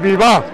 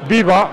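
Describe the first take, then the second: First: The stress is on the last syllable. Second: The stress is on the first syllable. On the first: The speaker calls it right. "Siempre acentuando en la A" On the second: The speaker calls it wrong. "en vez de decir viva"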